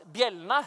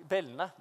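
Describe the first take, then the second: First: Said in the usual way. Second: «bjellene» uttalt uten j-lyd, som «bellene»; si «bjellene» med ren b før e, «bellene»; feiluttale. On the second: Real, not acted. («bjellene» feilsagt som «bellene»)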